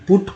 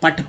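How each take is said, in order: First: The vowel is a short oo sound. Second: The vowel is a short uh sound. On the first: The speaker calls it right. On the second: The speaker calls it wrong.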